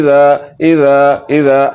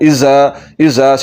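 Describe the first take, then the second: First: The consonant is soft with no hissing whistle. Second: The consonant is sharp with a hissing whistle. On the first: The speaker calls it right. "सीटी की आवाज़ बिल्कुल नहीं निकालनी और बगैर सीटी के पढ़ना है" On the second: The speaker calls it wrong. "सीटी की आवाज़ निकल रही है"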